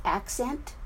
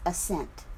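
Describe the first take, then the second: First: ACcent, slow, weight on the first syllable; stress on first syllable. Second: AsSENT, weight on the second syllable; stress on second syllable. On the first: Teacher contrasting two words, accent stressed on the first syllable. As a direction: stress the front of accent: AC-cent. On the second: Teacher contrasting two words, assent stressed on the second syllable. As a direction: stress the end of assent: a-SENT. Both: Shown as a demonstration. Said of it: "if we didn't have any emphasis".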